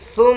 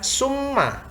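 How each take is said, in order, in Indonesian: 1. Dimulai dengan bunyi th, lidah di antara gigi. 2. Dimulai dengan bunyi s biasa. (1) "ketika kita membaca huruf sa itu lidahnya keluar sedikit" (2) "bukan summa"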